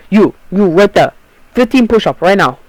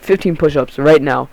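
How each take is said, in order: First: A hint of a shouted African accent, higher and a bit louder; mock African accent. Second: Said in the usual way. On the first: Kid imitates the substitute ordering push-ups, light African accent. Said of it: "I sound like fucking Asian or some weird shit". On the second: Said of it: "that's how we sounded".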